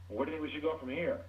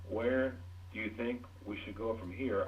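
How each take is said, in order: First: It is quick, higher-pitched, without pauses. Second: It is slow, low-pitched, with pauses. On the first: The listener is pushed away. The speaker calls it wrong. "You can't say to somebody" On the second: The listener is invited to engage. The speaker calls it right. "I slowed down, I lowered my voice, and I paused"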